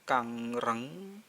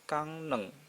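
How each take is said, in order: First: The second syllable starts with an R sound. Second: The second syllable starts with an N sound. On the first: The speaker calls it wrong. "bukan kang reng" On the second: The speaker calls it right. "tapi kang neng"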